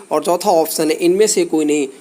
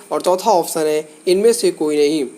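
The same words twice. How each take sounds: No difference in how they are said.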